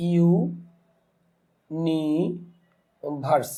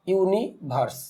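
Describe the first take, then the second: First: universe stretched very slowly as ইউ-নি-ভার্স; slow teaching breakdown of universe in three pieces; syllable by syllable. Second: Said in the usual way. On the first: Shown as a demonstration. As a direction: hold ইউ and নি long, pausing before verse. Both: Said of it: "তাহলে এখন দেখা যাচ্ছে".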